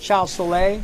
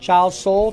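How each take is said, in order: First: The surname is said as two syllables, like so-lay. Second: The surname is said as one syllable, like soul. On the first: "however you like to pronounce it" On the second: "however you like to pronounce it"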